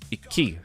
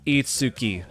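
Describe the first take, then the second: First: The middle is a doubled, held k. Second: The middle is a full tsu syllable. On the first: The speaker calls it right. "No, it says Iki, so it's doubling this" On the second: The speaker calls it wrong. "you might read this and think"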